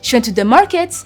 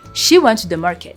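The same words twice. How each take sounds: First: The voice rises at the end on market. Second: The voice falls at the end on market. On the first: It sounds like a question. The speaker calls it wrong. "with a rising intonation" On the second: It is a plain statement. The speaker calls it right. "Market has a falling intonation"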